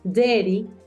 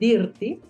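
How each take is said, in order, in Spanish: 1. La vocal antes de la R suena como una E. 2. La vocal antes de la R suena como una I clara. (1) "se convierte como en una E" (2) "no se dice dirty"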